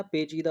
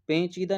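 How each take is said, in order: First: पेचीदा as pe-cheeda, no 'n'; correct oral vowel. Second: पेचीदा said as pen-cheeda; wrong nasal vowel. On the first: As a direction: keep the first vowel of पेचीदा free of nasality. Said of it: "पेचीदा होता है". (पेचीदा, बिना बिंदु का 'पे') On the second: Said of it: "पेचीदा नहीं होता". (पेचीदा को 'पेंचीदा' बोलकर) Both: Shown as a demonstration.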